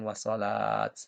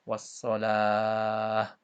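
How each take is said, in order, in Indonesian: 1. Kata ini berakhir dengan bunyi t. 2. Kata ini berakhir dengan bunyi h. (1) "bukan wassalat" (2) "kalau diwaqafkan atau berhenti, maka hukum bacanya, eee, dibaca ha"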